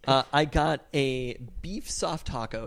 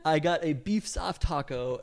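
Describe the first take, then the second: First: It is said with a disdainful tone. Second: It is said with a neutral tone.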